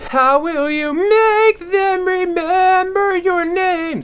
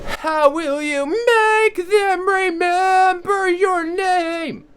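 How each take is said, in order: First: The voice sounds unsupported and dull. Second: The voice sounds supported, crisp and clear. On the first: "So that's kind of unsupported" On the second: "supported ... It's a lot more crisp, it's a lot more clear"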